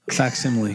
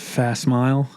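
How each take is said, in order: First: It is said with four syllables, fac-si-mi-le. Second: It sounds like two words, 'fast smile'. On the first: The speaker calls it right. "Got it" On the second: The speaker calls it wrong. "How did you think it was said? Fast smile"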